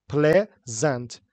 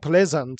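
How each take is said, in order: First: "pleasant" as two separate beats, ple-zant; split into syllables. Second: Said in the usual way. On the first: Shown as a demonstration. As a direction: break "pleasant" after "plea" with a clear gap. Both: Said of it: "How many syllables are there".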